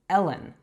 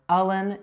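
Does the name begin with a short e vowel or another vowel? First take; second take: short e; another vowel. First: The first vowel is a short e. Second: The first vowel is not a short e. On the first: The speaker calls it right. "it's Ellen. So those short E sounds are eh" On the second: The speaker calls it wrong. "it's not Aylin or Allen"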